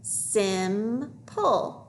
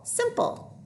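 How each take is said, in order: First: "Simple" stretched into sim, pause, pull; syllable by syllable. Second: Said in the usual way. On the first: Shown as a demonstration. Teacher decoding with pupils, syllable by syllable. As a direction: sound out "Simple" in two slow parts. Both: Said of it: "Let's read it".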